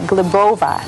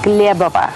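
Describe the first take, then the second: First: The name is said the English way. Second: The name is said the Russian way. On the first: "And in English, people would say" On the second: "in Russian"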